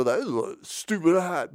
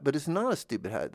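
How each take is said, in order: First: High, put-on scoffing voice; mocking objector. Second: Said in the usual way. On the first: People fussing at someone's odd hat, mock scorn. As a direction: imitate a critic sneering, pitched up. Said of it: "'cause they'd go".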